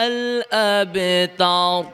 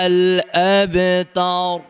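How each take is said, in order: Both takes have the same delivery.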